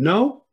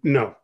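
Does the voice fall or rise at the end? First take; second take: rise; fall. First: The voice rises at the end. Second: The voice falls at the end.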